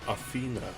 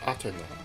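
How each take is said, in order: First: It is said with the common English pronunciation. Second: It is said with a Japanese-style pronunciation. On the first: "the common Athena" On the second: "my pronunciation of her name as the Japanese Athena"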